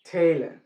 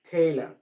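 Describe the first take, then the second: The two takes are said the same way.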